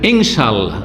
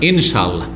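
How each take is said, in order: First: The n sound is nasalized and held. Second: The n sound is short and plain. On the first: The speaker calls it wrong. "ইনশাআল্লাহ না" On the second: The speaker calls it right.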